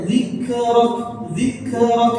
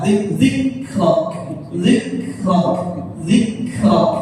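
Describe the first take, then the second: First: "zikrak" with the first kaf bouncing; wrong qalqalah. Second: "zikrak" with airy k, no echo vowel; careful "zikrak" without qalqalah; correct unbounced kaf. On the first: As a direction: echo a tiny vowel after k in "zikrak". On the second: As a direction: let breath out on the k in "zikrak". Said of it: "Ya, seperti itu". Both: Shown as a demonstration.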